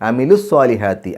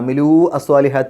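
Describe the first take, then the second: First: The final vowel of amilu is short. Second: The final vowel of amilu is held long. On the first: The speaker calls it right. "അമിലൂ എന്നുള്ളതിൻ്റെ നീട്ടൽ നഷ്ടപ്പെടും" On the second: The speaker calls it wrong. "എന്നല്ല പറയാം"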